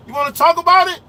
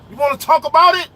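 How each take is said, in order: Both takes have the same delivery.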